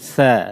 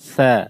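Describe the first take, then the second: First: The consonant is pronounced soft. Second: The consonant is pronounced soft.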